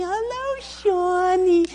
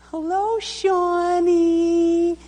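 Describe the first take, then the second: First: Very high sing-song "Hello, Shawnee"; sugar-sweet mom voice, overdone; saccharine mother. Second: High, slow, sugary "Hello, Shawnee"; sweet mother's wake-up voice. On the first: Mother gently waking her son for school, saccharine coo. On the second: Mother waking her sleeping son, sugary high coo. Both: Retold or imitated. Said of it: "she was so sweet and saccharine".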